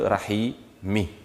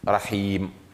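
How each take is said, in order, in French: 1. Le mot finit par la voyelle i brève. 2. Le mot finit sur une consonne sans voyelle. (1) "au lieu de Rahimi" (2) "Rahim au lieu de Rahimi"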